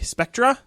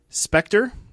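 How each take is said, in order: First: It is said in an American way. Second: It is said in a non-American way.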